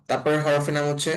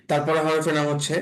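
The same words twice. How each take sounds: The two takes are said the same way.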